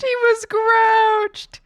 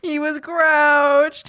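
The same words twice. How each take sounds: First: "grouched" stretched out, much higher and louder; higher drawn-out pity. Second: Drawn-out pity. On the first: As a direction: say it again way up high and slow. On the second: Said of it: "My poor baby". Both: Real, not acted.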